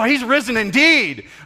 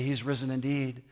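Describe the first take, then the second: First: It is said in an excited, lively way. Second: It is said in a bored, flat way.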